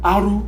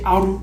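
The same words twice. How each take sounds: First: The letter R is said with a Nigerian accent. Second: The letter R is said with a Nigerian accent.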